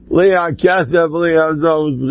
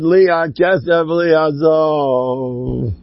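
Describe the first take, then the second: First: Said in the usual way. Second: Last word stretched very long; drawn-out quotation. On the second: Retold or imitated. Quoting Rabbi Aaron's saying about money, drawn out. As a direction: quote it slowly, lingering on the final word. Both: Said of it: "Rabbi Aaron said".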